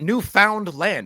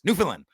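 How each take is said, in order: First: The name is broken into separate words. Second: The name runs together as one word. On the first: The speaker calls it wrong. "not newfound land. It's not three separate words" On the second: The speaker calls it right. "It's one word. And Newfoundlanders say it like this"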